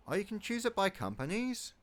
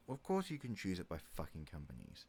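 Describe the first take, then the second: First: Higher, louder, rising on "by"; genuinely surprised discovery. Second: Dry, softer, falling, stress on "course"; mock obviousness, deadpan; sarcastic. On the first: Discovering a game option. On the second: Answering his own question sarcastically. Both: Real, not acted.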